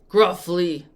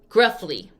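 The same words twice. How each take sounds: First: It is said in a low, rough voice. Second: It is said in an ordinary speaking voice. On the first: "with my voice change" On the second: "I'll say it in my regular voice"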